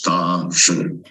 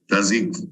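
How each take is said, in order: First: It ends in a vowel with a sh sound. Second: It ends in a k with a z sound. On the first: This is how the characters are read today. "This is a pronunciation today" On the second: This is how the characters were read in ancient times. "according to the ancient pronunciation, it should be Dazi or Dazik"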